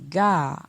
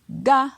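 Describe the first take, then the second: First: The syllable is said on a falling tone. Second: The syllable is said on a high tone. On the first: "avec un ton descendant" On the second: "avec un ton haut"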